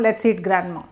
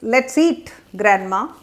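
First: There is no pause before grandma. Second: There is a pause before grandma.

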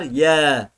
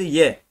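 First: The vowel is drawn out long. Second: The vowel is short. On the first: "Elif var" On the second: "Elif olmasaydı"

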